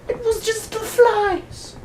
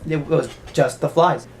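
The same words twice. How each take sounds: First: Very high, slow squeaky take on "It was just the flies"; mock squeaky official. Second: Said in the usual way. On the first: Official insists it was only flies, high squeaky mock voice. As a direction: squeak it out dismissively. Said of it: "the other guy's like". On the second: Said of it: "he'd be entirely right".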